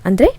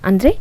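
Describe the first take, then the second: No difference in how they are said.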